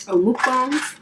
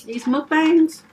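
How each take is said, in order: First: Mukbangs said the other way, in a changed tone; second pronunciation of mukbangs. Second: Mukbangs said the first way, higher and louder; first pronunciation of mukbangs. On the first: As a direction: mukbangs with the alternate vowels. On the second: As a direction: mukbangs with one version of the vowels. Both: Shown as a demonstration. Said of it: "depending on how you say it".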